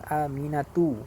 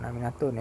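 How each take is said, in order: First: The name ends on a vowel, no final n. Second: The name ends with an added n sound. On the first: The speaker calls it right. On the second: The speaker calls it wrong.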